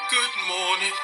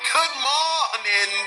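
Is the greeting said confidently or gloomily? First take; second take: gloomily; confidently. First: It is said in a gloomy, mournful way. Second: It is said with confident swagger.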